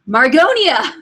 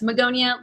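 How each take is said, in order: First: The first syllable has an r sound. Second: The first syllable has no r sound. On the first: The speaker calls it wrong. "I'm probably saying that wrong" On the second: The speaker calls it right. "But no, it's Magonia"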